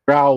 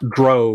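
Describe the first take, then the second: First: The vowel rhymes with cow. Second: The vowel rhymes with toe. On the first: The speaker calls it right. "Drow like prow, sow, cow, now, how" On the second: The speaker calls it wrong. "Not Dro like toe, ho, slow, mo"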